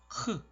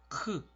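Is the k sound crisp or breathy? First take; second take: breathy; breathy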